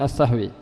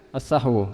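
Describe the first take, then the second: First: The word ends with an i vowel. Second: The word ends with a u vowel. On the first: The speaker calls it wrong. "bukan as-sahwi" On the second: The speaker calls it right. "dibacanya dengan as-sahwu"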